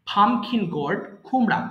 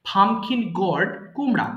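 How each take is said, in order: No difference in how they are said.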